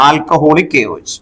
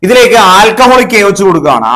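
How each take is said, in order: First: Slow dictation. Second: Said in the usual way. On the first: Shown as a demonstration. Teacher repeats reagent name.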